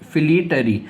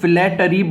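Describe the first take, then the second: First: The first syllable sounds like 'fleet'. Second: The first syllable sounds like 'flat'. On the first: The speaker calls it right. "सही उच्चारण है फ्लीट or ई" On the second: The speaker calls it wrong. "इसको काफ़ी सारे लोग फ्लैटरी बोलते हैं"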